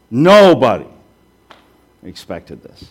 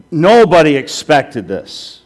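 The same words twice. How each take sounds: First: Nobody belted out, then expected this dropped to a hush; dramatic swing from loud to hushed. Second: Slow, louder, weight on Nobody; firm slow emphasis; emphatic statement. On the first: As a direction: punch Nobody, then fall away to a near whisper. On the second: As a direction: lean hard into Nobody. Preacher repeats for emphasis. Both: Shown as a demonstration.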